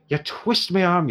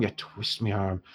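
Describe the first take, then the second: First: Slow Irish give-in, rising on arm; caving in Irish, playing up the sigh; dwarf shopkeeper in an Irish accent giving in to the heroes. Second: Softer Irish mutter of you twist me arm; dwarf shopkeeper in an Irish accent conceding under his breath; quiet Irish repeat. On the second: Acted. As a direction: let it fall away in Irish. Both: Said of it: "I've gone entirely Irish now".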